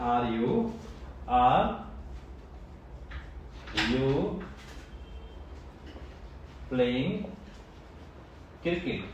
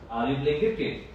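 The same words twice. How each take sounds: First: Each word split off by long pauses. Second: Said in the usual way. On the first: Shown as a demonstration. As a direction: spell it out slowly, one word at a time. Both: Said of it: "simple.".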